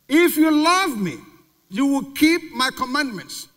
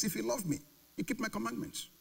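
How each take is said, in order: First: Louder, higher, slow; emphasized. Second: Hushed, softer quote; quiet. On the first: Preacher repeating the verse to the congregation with force. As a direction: stress If and keep, slowly. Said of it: "Again, emphasize". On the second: Preacher quoting Jesus softly to the congregation. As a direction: drop the voice on the verse. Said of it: "In other words". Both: Shown as a demonstration.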